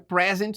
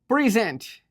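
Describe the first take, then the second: First: The stress is on the first syllable. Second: The stress is on the second syllable. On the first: It is the noun. The speaker calls it wrong. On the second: It is the verb. The speaker calls it right.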